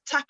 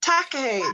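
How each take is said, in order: First: Takahe said tentatively, run quickly into the sentence; an unsure first try at Takahe; hurried, uncertain attempt at the word Takahe; unsure pronunciation. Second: Takahe copied carefully as a separate word, falling; repeated pronunciation. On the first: Real, not acted. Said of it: "can you pronounce that?". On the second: Shown as a demonstration. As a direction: echo the model Takahe back. Repeats the pronunciation just shown.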